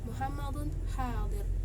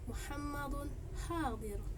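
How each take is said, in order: First: The end is said on a mid pitch. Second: Pitch goes high before the end, then drops. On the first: "nada sedang, itu berada pada akhir kalimat" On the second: "nada tinggi ini berada sebelum akhir kalimat, dan setelahnya itu diikuti dengan nada rendah"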